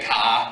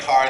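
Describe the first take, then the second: First: It is said in a Boston accent. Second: It is said in a general, non-Boston accent.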